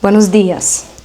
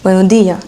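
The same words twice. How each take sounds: First: The s sounds are clearly pronounced. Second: The s sounds are dropped.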